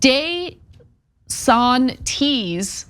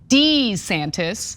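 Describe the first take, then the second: First: The name has an Italian pronunciation. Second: The name has a plain American pronunciation. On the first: The speaker calls it right. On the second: The speaker calls it wrong.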